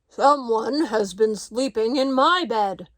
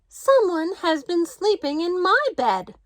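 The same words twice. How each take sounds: First: It is said in a great big voice. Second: It is said in a middle-sized voice.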